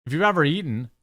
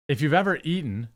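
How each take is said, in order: Both takes have the same delivery.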